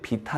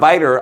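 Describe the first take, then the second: First: The word begins with a 'bee' sound. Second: The word begins with a 'vie' sound. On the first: The speaker calls it wrong. "비탈 아닙니다" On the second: The speaker calls it right. "발음 조심"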